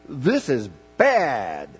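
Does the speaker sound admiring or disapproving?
admiring. It sounds admiring and enthusiastic. The thing is good. "then it's good"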